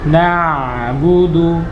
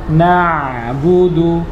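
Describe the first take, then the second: No difference in how they are said.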